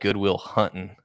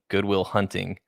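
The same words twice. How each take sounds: First: It is said in a Texan-sounding accent. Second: It is said in a plain, neutral accent. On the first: The other person has picked up a Texan way of speaking. The speaker calls it wrong. "You've been in Texas for how long? ... you said Goodwill Hunting" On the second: This is the usual way to say it. The speaker calls it right. "instead of saying Goodwill Hunting"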